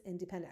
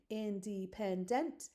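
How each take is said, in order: First: Said in the usual way. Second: Independent slowly split into four even beats; syllable by syllable. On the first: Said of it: "Our word is". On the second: Shown as a demonstration. Teacher doing a syllable check, slow separated word. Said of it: "Let's do a syllable check".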